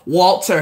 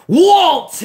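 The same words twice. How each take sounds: First: It is said flatly, without force. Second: It is said forcefully, with punch.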